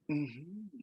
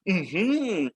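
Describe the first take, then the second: First: The hmm sounds surprised. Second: The hmm sounds excited. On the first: The speaker is surprised. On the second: The speaker is excited.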